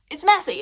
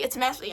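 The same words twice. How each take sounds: First: First one higher and louder; emphatic. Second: Said in the usual way. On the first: Real, not acted. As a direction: blurt it out with excitement. Repeats it's messy, first loud.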